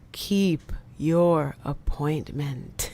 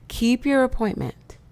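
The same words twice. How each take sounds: First: It is said at normal volume. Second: It is said louder.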